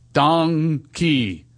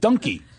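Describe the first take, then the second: First: The first syllable sounds like 'Don'. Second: The first syllable does not sound like 'Don'. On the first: The speaker calls it right. "Like Don King" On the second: The speaker calls it wrong. "It's donkey"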